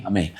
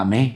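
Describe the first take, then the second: First: "Amém." with a falling, settled end; confirming amen. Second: "amém?" with a rising, questioning end; questioning amen. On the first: Wife agrees to await confirmation, settled "Amém." with falling tune. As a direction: let "Amém." drop as a closing answer. Retold answer to the question. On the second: Husband checks that his wife agrees, questioning "amém?" with rising tune. Asks for agreement, then answers. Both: Retold or imitated.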